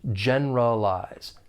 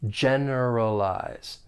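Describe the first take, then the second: First: The word is said with three syllables. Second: The word is said with four full syllables. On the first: "that schwa sound will elide, and it's going to sound more like it has three syllables" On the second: "there are four syllables. The stress is on that first syllable"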